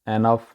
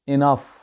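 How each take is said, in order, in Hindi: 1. पहला स्वर 'eh' जैसा सुनाई देता है। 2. पहला स्वर 'ih' जैसा सुनाई देता है। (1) "एनफ नहीं, ये गलत है" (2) "एक्चुअल इसका तलफ़ुज़ है इनफ"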